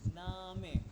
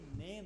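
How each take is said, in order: First: It is two syllables, 'nah-meh', ending in 'e'. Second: It is one syllable, like English 'name'. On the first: The speaker calls it right. "ये आ है ना. ये ई को ए कहते हैं" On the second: The speaker calls it wrong. "ये नेम नहीं कहना आपने इसको"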